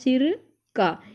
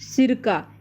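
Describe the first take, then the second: First: There is a short pause between the two parts. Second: It is said as one word without a pause. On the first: It means relating to the head. "थोड़ा सा रुकाव देके" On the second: It means vinegar. "ये एक पदार्थ है"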